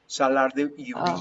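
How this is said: The name is said with a Spanish accent. "This is Spanish"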